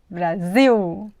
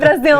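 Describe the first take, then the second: First: The final L sounds like a U vowel. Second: The final L is a clear L consonant. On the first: The speaker calls it right. "ele vai ser pronunciado como U" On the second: The speaker calls it wrong. "Não fale Brasil!"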